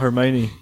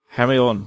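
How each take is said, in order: First: The name is said in its usual standard way. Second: The name is said the way it looks spelled. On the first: The speaker calls it right. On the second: The speaker calls it wrong. "I read the first three books before somebody actually said it in person"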